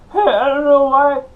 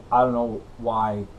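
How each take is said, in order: First: Much higher, louder comic yelp; Bobcat Goldthwait impression. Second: Said in the usual way. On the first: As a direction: blurt it like a frantic stand-up. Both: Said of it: "done a Bobcat Goldthwait impression".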